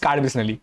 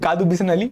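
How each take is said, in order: First: The first part is said as one syllable. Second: The first part is said with two syllables. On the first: This is the proper name of the place. The speaker calls it right. "It's Card Bisnali" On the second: This is how the speaker used to say it. The speaker calls it wrong. "which I used to pronounce"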